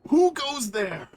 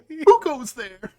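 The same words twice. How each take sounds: First: A put-on voice strains to sound menacing. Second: A put-on voice sounds goofy, like a puppet. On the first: "I have to try to find a way to sound somewhat intimidating in this voice" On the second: "Just do his regular voice"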